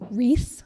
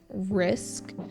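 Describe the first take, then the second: First: The word ends without any k sound. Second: The word ends with a clear k sound. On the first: The speaker calls it wrong. "Vietnamese speakers often drop the k sound" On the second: The speaker calls it right. "instead of saying risk"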